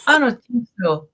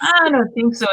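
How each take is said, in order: First: Flat sassy no; sassy refusal. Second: A bit higher, sassy no; sassy refusal again. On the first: Telling relatives she won't change, sassy. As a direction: dismiss it with attitude. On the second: Insisting to relatives she won't change, sassy. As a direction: repeat the refusal with attitude. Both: Retold or imitated.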